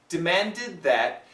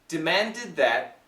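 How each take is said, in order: First: The D merges into the TH sound. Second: The same.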